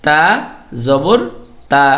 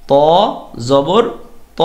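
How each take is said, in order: First: তা said thin with an open a; thin light তা; thin a sound. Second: ত said heavy with a rounded o; heavy o sound. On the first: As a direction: keep তা light and clear. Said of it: "তা আ sound দিতে হবে". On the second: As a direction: thicken ত so the vowel leans to o. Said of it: "ত অ sound দিতে হবে". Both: Shown as a demonstration.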